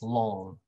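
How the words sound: It is said in an American accent. "In American English, it's like this"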